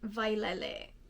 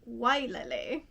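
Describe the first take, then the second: First: The word begins with a V sound. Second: The word begins with a W sound. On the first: "the W can be pronounced as a W or a V" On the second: "It's also acceptable to pronounce it Wailele"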